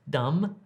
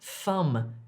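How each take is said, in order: First: The word starts with a hard d sound. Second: The word starts with a th sound. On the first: The speaker calls it wrong. "Don't say dumb" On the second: The speaker calls it right. "if you're trying to say thumb"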